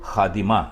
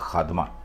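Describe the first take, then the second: First: An 'i' vowel is heard between 'd' and 'm'. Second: No vowel is heard between 'd' and 'm'. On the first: The speaker calls it right. "दुरुस्त लफ्ज है खादिमा" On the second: The speaker calls it wrong. "यह गलत है"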